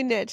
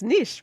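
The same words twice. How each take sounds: First: The word is said the American way. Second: The word is said the French-like way. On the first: "Americans say niche" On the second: "it's a French word, it's niche"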